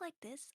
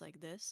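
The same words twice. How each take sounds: First: The voice is pitched high in the range. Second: The voice is pitched low in the range. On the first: This is a forced voice. "when I talk like this, ... force yourself to talk like this" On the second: This is the natural speaking voice. "my normal speaking voice um is basically just like this, like kind of really low"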